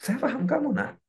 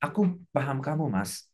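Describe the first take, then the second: First: High-pitched, tender parent voice; high, gentle reassurance to a child. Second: Lightly voiced understanding wife; a hint of a tender spouse; spouse to husband. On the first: Acted. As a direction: lift the pitch as if talking to your child. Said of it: "bicara sama anak". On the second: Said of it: "Bicara sama pasangan".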